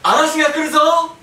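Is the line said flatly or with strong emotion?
flatly. It is said with little emotion.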